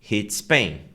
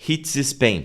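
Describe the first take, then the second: First: A single S sound links the two words. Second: Both S sounds are pronounced separately. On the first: The speaker calls it right. "Você fala um S só e você emenda" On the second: The speaker calls it wrong. "você não vai falar hits Spain, hits Spain, porque isso não é natural"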